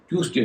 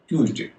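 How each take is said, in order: First: The middle consonant is a hissing s sound. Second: The middle consonant is a buzzing z sound. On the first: The speaker calls it wrong. "ट्यूसडे नहीं होगा" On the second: The speaker calls it right. "उसका उच्चारण हो जाएगा ज"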